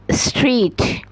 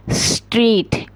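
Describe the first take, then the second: No difference in how they are said.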